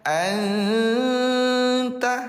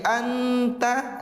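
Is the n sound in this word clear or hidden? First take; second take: hidden; clear. First: The n sound is hidden and nasalized. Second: The n sound is pronounced clearly. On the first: The speaker calls it right. "cara membacanya disamarkan" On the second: The speaker calls it wrong. "bukan lagi anta"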